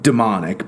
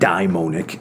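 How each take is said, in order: First: The word begins with a 'dee' sound. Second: The word begins with a 'dye' sound. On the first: "you could also pronounce that demonic" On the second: "he's really meaning daimonic"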